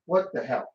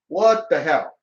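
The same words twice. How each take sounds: First: Quiet, low mock-stunned reaction; stunned disbelief. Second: Mock disbelief, leaning on the words; firmer disbelief. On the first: Gamer reacting to Peach needing saving, in quiet disbelief. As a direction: say it under your voice in disbelief. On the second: Gamer repeating his reaction to Peach's rescue, firmer disbelief. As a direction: repeat it more firmly, less hushed.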